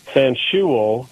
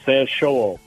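First: The double O vowel is drawn out slowly. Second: The double O vowel is said very quickly. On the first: The speaker calls it wrong. "because I was pronouncing it Sanshuo, just like you said" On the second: The speaker calls it right. "it's a double O that's pronounced really fast. So it's Sanshuo, like that"

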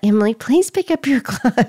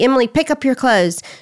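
First: It is said softly and gently. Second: It is said bluntly and harshly.

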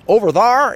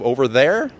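First: "There" is said as "thar", Kentucky style. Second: "There" is said with the standard vowel.

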